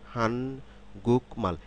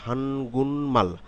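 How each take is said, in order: First: Three separate syllables with a k sound. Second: Syllables joined, with the k changed to ng. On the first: "তিন সিলেবালের সমন্বয়ে গঠিত একটি শব্দ" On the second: "গিয়ক রূপান্তরিত হয়ে ইয়ং হয়ে গেল"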